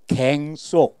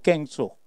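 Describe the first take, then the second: First: The first consonant is plain. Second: The first consonant is tense. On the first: The speaker calls it right. "착하고 부드러운 사람들이기 때문에 갱속" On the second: The speaker calls it wrong. "마음이 사악한 사람은 깽속이라고 그래요"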